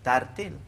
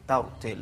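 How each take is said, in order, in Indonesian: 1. Kata ini diucapkan dengan bunyi tipis dan ringan. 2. Kata ini diucapkan dengan bunyi tebal dan berat. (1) "jangan sebut tartil"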